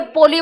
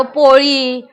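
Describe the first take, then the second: First: पोली with an ordinary L, tongue tip forward; non-Marathi plain L. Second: पोळी with a retroflex L, tongue curled back; Marathi retroflex ळ. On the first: Teacher showing how non-Maharashtrians say it, पोली with plain L. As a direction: say पोली with no retroflex curl on the L. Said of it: "ये लोग पोली बोलेंगे". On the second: Teacher showing Maharashtrians' word to class, पोळी with retroflex ळ. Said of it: "वो लोग ळी नहीं बोलेंगे". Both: Shown as a demonstration.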